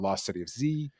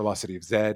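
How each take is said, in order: First: The letter is said the American way, as zee. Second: The letter is said the British way, as zed.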